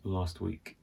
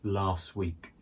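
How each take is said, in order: First: The T sound at the end of 'last' is pronounced. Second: The T sound at the end of 'last' is dropped. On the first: "it's better to say last week" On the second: "So that T is sometimes dropped"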